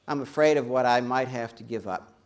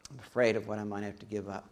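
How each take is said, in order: First: Said in the usual way. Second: Softer, lower repeat of "afraid"; quieter echo. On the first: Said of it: "repeats the line". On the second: Shown as a demonstration. Preacher echoing the fear line, softer and lower. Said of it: "repeats the line quieter".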